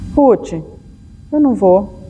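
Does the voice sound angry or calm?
calm. It is said in a calm, neutral tone.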